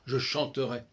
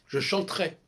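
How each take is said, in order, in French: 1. Le e du milieu est prononcé comme une syllabe pleine. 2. Le e du milieu est supprimé, ce qui raccourcit le mot.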